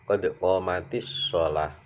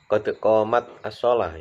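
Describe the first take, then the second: First: The t of qomat joins the next word with i. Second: The t of qomat is stopped before the next word. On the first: The speaker calls it right. "karena dia disambungkan dengan kata as-shalah jadi di kasrah" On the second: The speaker calls it wrong. "enggak dibaca qad qomat as-shalah"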